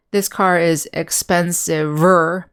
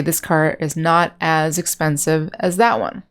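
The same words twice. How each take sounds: First: This car is expensiver, said slowly as the wrong example; slow demo of the wrong expensiver; wrong form shown. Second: Said in the usual way. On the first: Shown as a demonstration. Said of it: "We would not say". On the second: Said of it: "Or you can say".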